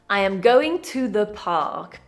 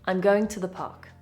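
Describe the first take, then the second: First: I am and to are said in full. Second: I'm is contracted and to is reduced.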